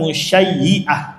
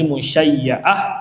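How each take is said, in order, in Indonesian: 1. Vokal setelah y yang ganda adalah i. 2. Vokal setelah y yang ganda adalah a. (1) "Boleh juga dibaca dengan kasrah" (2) "Kalau tadi musyayya'ah"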